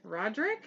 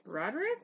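First: "Roderick" with the middle vowel dropped, rising questioningly; two-syllable pronunciation. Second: "Roderick" with a distinct middle syllable, rising questioningly; three-syllable pronunciation. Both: Shown as a demonstration. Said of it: "I don't know if I said that right".

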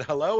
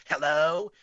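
First: Said in the usual way. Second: Drawn-out mocking hello, slightly louder than plain; mocking echo. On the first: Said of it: "It was, like, my voice". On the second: Eerie phone voice echoes the caller's greeting, mocking. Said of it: "but it was mocking me".

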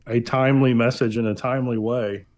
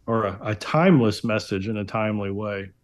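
First: Said in the usual way. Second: Timeless pushed to correct timely; corrected motto with timeless stressed. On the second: Real, not acted. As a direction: lean on the word timeless to fix the slip. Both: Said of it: "as we like to say".

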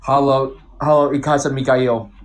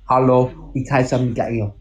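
First: German with an English accent. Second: Slower, slightly better German pronunciation; a careful second go at a German accent; improved German accent. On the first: Showing friends a German sentence, in an English accent. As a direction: say it like an English speaker trying German. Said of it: "an English guy saying German". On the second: Retrying German for friends, somewhat better German accent. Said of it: "it's a little better". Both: Shown as a demonstration.

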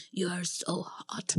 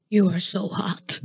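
First: Awkward white man. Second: Slow, stiff "You are so hot"; a lightly voiced stiff white guy, slow; awkward white man. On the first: Retold or imitated. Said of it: "just white man". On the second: Quoting a guy flirting, slow and stiff. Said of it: "the way he said it".

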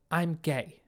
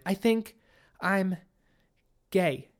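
First: Said in the usual way. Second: Halting, higher start with pauses before the last words; hesitant confession. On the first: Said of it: "she said without hesitation". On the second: A narrator's reading. Daughter coming out to her father, hesitant. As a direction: edge into it word by word.

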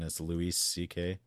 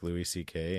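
First: Name said with a put-on Hispanic accent; lightly joking Hispanic pronunciation. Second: Said in the usual way. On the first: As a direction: turn Louis into a Hispanic name. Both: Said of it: "like, a Hispanic Louis C K".

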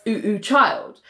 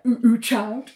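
First: Said in the usual way. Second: Lightly mocking echo with a laugh; gentle mock repeat. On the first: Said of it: "she said". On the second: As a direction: mimic the title teasingly. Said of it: "mocking how she said it".

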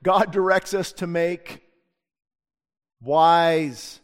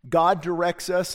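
First: God directs us to make, slow, then wise punched loud; underlining the key word wise for the congregation; slow emphatic teaching. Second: God directs us, GOD held long and slow; slow teaching emphasis on God; stress on God. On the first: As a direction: land hard on wise after a pause. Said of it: "let's underline that". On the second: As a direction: lean on God, slow and deliberate. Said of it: "memorize these last two things". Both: Shown as a demonstration.

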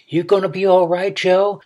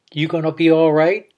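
First: Calling out higher to be heard; repeated louder. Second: Said in the usual way. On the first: A narrator's reading. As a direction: raise your voice so he hears you. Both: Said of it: "she repeated louder".

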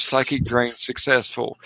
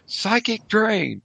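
First: A hint of an official call, close to usual pitch; lightly voiced authoritative announcer. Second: High, drawn-out cry with a falling end. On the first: Game master reads the announcer's ruling, lightly authoritative. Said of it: "An authoritative voice calls". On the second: Game master voices a group casting at rivals, crying out. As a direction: call it out slow and high, like a curse. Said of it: "and cry out". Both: A narrator's reading.

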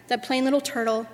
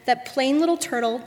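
No difference in how they are said.

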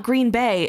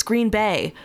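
First: "Green Bay" as an outsider says it, corrected; "Green Bay" mimicked as the wrong way; wrong local stress. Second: "Green Bay" as locals supposedly say it; "Green Bay" mimicked as the right way; corrected pronunciation. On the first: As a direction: say "Green Bay" as the rejected version. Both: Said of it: "this is what it sounded like".

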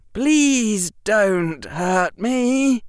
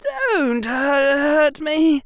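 First: Very slow, higher and louder plea with a sneer under it; pleading that sounds insulting. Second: A high, broken plea with a stumble; faltering plea. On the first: Harry tries pleading again but sounds insulting. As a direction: beg but let contempt leak through. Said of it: "make that sound like an insult". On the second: Harry begs Derek not to hurt him, faltering. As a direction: beg in a shaky, breaking voice. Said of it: "his voice faltering". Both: A narrator's reading.

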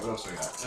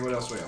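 First: Quiet muttered repeat; muttered to self. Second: Said in the usual way. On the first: Real, not acted. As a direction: mutter it under your breath.

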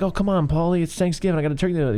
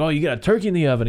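First: Lightly acted, higher-pitched woman's plea; imitating pleading Adrian. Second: Quick, higher-pitched mocking retort; imitating scornful Paulie. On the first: Quoting a woman appealing to Paulie at Thanksgiving, mock pleading. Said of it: "she's like". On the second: Quoting Paulie snapping back at her about dinner, mock scorn. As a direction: throw it back fast, mockingly. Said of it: "He's like".

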